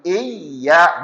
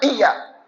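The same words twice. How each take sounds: First: The word is pressed with a swinging stress. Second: The word is said quickly without extra stress. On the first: The speaker calls it right. "Harus iya, ditekan, ada di ayunnya" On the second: The speaker calls it wrong. "bukan iya. Bukan cepat begitu"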